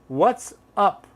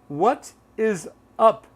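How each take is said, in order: First: What and is merge into one syllable. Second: All three words are said in full. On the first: "a lot of people say" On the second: "instead of what is up"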